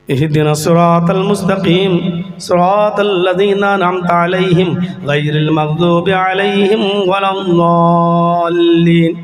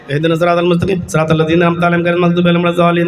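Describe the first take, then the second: First: It is recited earnestly, like a real plea. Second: It is recited carelessly, like a hurried joke.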